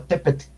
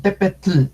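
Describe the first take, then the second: First: Tepetl with the final L barely breathed; soft tl. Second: Tepetl with a heavy, sounded L at the end; wrong voiced tl. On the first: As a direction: end Tepetl almost as tepet. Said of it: "sino Tepetl". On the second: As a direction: overdo the tl in Tepetl. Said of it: "no decimos Tepetl". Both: Shown as a demonstration.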